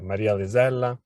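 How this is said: The name is said with an Italian accent. "So I said them with the Italian accent"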